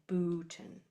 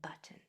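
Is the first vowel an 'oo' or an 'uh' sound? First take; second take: oo; uh. First: The first vowel is a long 'oo' sound. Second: The first vowel is a short 'uh' sound. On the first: The speaker calls it wrong. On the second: The speaker calls it right.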